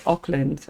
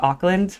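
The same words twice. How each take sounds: First: "Auckland" with a rounded OAK first syllable; local pronunciation. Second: "Auckland" with an open AHK first syllable; spelling pronunciation. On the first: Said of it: "like they pronounce Auckland". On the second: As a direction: say "Auckland" as AHK-lund, American style. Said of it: "if I look at it". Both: Shown as a demonstration.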